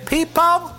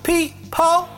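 First: It is said in an imitated rock-singer voice. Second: It is said in an imitated rock-singer voice.

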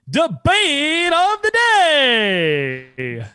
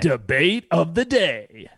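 First: It is said with more energy and pizzazz. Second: It is said with plain, low energy.

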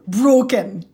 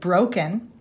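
First: The first vowel is one long steady sound. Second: The first vowel glides between two sounds. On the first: "diphthongs become single sounds" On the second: "O, as in broken. In American English"

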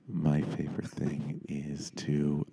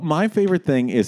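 First: It is said in a put-on NPR voice. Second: It is said in his normal voice.

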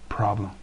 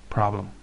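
Both takes have the same delivery.

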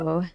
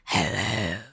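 First: It is said in a normal voice. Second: It is said in a put-on demon voice.

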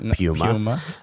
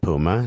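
First: The name is said the European way. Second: The name is said the American way. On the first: "not Puma" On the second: "for everyone in Europe listening, that's right. I said Puma"

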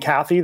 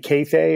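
First: The name ends with a short 'ee' sound. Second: The name has two long 'ay' vowel sounds. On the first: "instead of saying Kathy" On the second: "Only two long A's"

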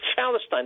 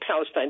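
First: The word begins without a P sound. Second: The word begins with a P sound. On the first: "They say Palestine" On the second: "They can't say Palestine"

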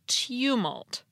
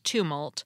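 First: It is said with a y sound after the t. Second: It is said without a y sound after the t. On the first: "and in British English, it's tumult" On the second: "So in American English, it's tumult"

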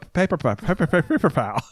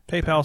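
First: It is said with an extra syllable, paper pal. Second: It is said as two clear syllables, PayPal. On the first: The speaker calls it wrong. "that was my problem before is I would just not think. And I go" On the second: The speaker calls it right. "I have to think about saying PayPal"

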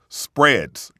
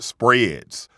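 First: The word is said in a standard accent. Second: The word is said in a Southern accent. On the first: The speaker calls it right. "The word is spreads" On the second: The speaker calls it wrong. "not spreads"

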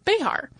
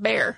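First: The name is said with two syllables. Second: The name is said as one syllable. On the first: This is the old colonial-era village name. "the generally accepted pronunciation is Béjar" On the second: This is how today's local residents say it. "the residents there pronounce it Bear"

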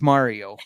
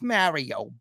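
First: Mario is said with a standard accent. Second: Mario is said with a Bronx accent.

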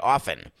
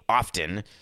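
First: The t sound in the word is silent. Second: The t sound in the word is pronounced. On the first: It sounds like a different word. "I far more often say often. But then it sounds like I'm offing you" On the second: It sounds pompous. "I always thought it sounded pompous. I don't often say often"

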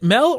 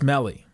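First: The name ends without a final vowel sound. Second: The name ends with a final 'ee' sound. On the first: "I guess the I is silent" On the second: "It's fun to say Melly"

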